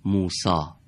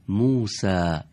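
First: موسا said the Persian way, with a long open final aa; موسا ending in a full Persian â; Persian pronunciation. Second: موسا said with an Arabic accent and a short front final a; موسا, Arabic accent, falling at the end. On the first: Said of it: "ما تو فارسی هم این کلمات رو". (موسا با تلفظ فارسی) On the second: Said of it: "نو لهجهٔ عرب بگیم". (موسا با لهجهٔ عربی) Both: Shown as a demonstration.

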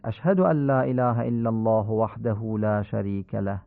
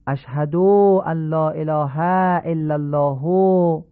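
First: «اشهد ان لا اله» at even pace, short vowels short; correct vowel lengths. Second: «اشهد ان لا اله» drawn out slowly, short vowels lengthened; showing the faulty long recitation; wrongly stretched vowels. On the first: Teacher models the correct tashahhud for listeners. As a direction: model the proper reading. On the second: Teacher demonstrates a common prayer mistake, stretched vowels. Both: Shown as a demonstration. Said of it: "این غلطه".

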